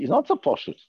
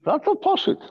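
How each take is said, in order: First: Said in the usual way. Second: "Not so poshut" jumps much higher, stress on "so"; emphatic repeat. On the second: Shown as a demonstration. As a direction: fling "Not so poshut" up high, leaning on "so".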